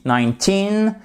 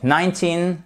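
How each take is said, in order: First: "Nineteen" higher, stressed on the second half; stress on TEEN. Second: Put-on "nineteen" with TEEN left unstressed; wrongly stressed. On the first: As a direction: lift and lean on TEEN in "Nineteen". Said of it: "accentuation qui est sur la seconde partie du mot". (« Nineteen » accentué sur la seconde syllabe) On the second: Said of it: "parce que si vous dites nineteen". (« nineteen » accentué sur la première syllabe, comme « ninety ») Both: Shown as a demonstration.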